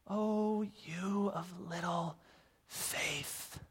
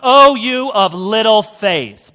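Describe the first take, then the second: First: It is said softly and tenderly. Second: It is said harshly and forcefully.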